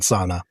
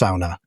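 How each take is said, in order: First: The word is said the American way. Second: The word is said the Finnish way. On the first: The speaker calls it wrong. "not sauna" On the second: The speaker calls it right. "it is pronounced sauna"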